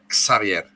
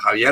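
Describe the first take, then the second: First: The name is said with a Catalan pronunciation. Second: The name is said with a Spanish pronunciation. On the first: "en catalán se pronuncia eh, Xavier" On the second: "en español se pronuncia Javier"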